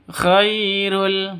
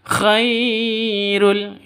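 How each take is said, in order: First: The 'khai' syllable flows directly and smoothly. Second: The 'khai' syllable is held or pushed out. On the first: The speaker calls it right. "yang betul langsung" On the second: The speaker calls it wrong. "itu salah ya"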